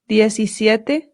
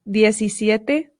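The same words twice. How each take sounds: No difference in how they are said.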